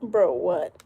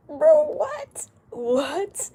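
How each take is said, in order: First: Said in the usual way. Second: Louder, much higher disbelieving repeat; incredulous. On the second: Real, not acted. Streamer reacting to a baffling comment, high and incredulous. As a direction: exclaim it high and loud in disbelief.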